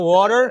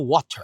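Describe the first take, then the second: First: It is said with an American accent. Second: It is said with a British accent. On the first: "aqui nos Estados Unidos é water" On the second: "lá na Inglaterra é water"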